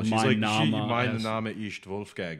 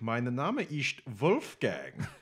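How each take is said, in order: First: It is said in a plain, normal voice. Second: It is said in an exaggerated put-on accent. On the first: The speaker is simply stating a name. The speaker calls it right. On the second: The speaker is playing a character for fun. The speaker calls it wrong.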